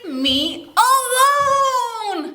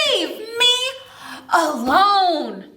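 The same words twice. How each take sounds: First: High, slow wailing plea to be left alone; old woman's cry. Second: Mild demo shout, higher on me; shout along. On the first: Acted. Old woman cries out to everyone pestering her, high and drawn out. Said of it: "Yep, she says". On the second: Shown as a demonstration. Storyteller leading children in shouting the line, half-hearted. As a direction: call it out for the kids to join. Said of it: "Shout it as loud as you can".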